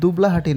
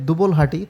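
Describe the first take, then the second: First: A vowel is sounded between the 'l' and 'h'. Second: No vowel is sounded between the 'l' and 'h'. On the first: The speaker calls it wrong. "আমার উচ্চারণে একটা ভুল হয়েছে, সেটা হচ্ছে এটা দুবলাহাটি না" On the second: The speaker calls it right. "এটা হবে দুবলহাটি"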